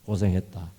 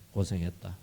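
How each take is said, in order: First: Comforting. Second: 고생했다 repeated much softer and gentler; softer comforting echo. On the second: God holding Moses, repeating 고생했다 softly and tenderly. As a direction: let 고생했다 fall away into a tender hush. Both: Retold or imitated. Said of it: "모세를 위로합니다".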